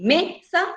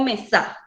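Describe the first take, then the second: First: "mesa" with the voice loaded on "me"; stress on first syllable. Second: "mesa" wrongly stressed on the final "sa"; stress on last syllable. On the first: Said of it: "dónde se carga la voz". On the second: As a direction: say "mesa" as me-SA, voice loaded at the end. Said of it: "en dónde tiene mayor intensidad". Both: Shown as a demonstration.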